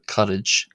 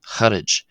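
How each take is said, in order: First: The word begins with a hard k sound. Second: The word begins with a throaty h sound. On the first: This is the plain form of the word. "the word for friend here" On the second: The preceding word has changed its first sound. "is being pronounced harage"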